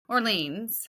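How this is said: It is said with an English pronunciation. "we would say, Orleans. That's how we would pronounce it"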